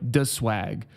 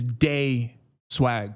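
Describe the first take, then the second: First: The first syllable sounds like 'the'. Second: The first syllable sounds like 'day'. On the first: The speaker calls it wrong. "Don't disrespect us out here by calling them like the Swag" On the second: The speaker calls it right. "the only way to pronounce that is Day Swag"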